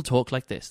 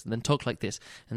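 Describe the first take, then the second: First: Said in the usual way. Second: Softer, hushed narration voice; soft narrator demo. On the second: Shown as a demonstration. Mocking audiobook narrators, he reads in a softer hush. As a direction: drop into a muted reading tone. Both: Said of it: "people talk like this".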